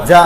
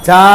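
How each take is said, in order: First: যা said short and quick; যা as a quick short syllable; short quick vowel. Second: যা with the aa stretched long; যা as a long, held syllable; drawn-out vowel. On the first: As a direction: cut the vowel of যা short, no stretching. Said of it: "তাড়াতাড়ি". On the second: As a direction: drag out the vowel in যা. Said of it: "বলা যাবে না". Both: Shown as a demonstration.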